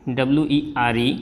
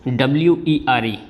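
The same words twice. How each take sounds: No difference in how they are said.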